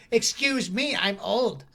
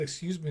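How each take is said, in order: First: Put-on higher, prissy old-lady voice; indignant old lady. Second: Said in the usual way. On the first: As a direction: play the offended old woman. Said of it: "she looked at me and was like".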